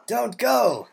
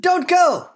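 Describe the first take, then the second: First: Said in the usual way. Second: Pleading shout. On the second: Acted. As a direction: stop them from leaving. Farmer begging visitor to stay.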